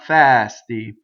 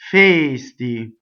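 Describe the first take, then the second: First: The first vowel is an open e. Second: The first vowel is a closed e. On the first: The speaker calls it wrong. "It's not fasty" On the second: The speaker calls it right. "this verb is closed"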